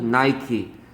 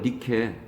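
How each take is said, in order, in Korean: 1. 'nai-kee'처럼 들리고, 'ai'를 길게 발음해요. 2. 'nee-keh'처럼 들리고, 모음이 짧아요. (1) "영어에서는" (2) "그리스 사람들은 니케라고 불러요"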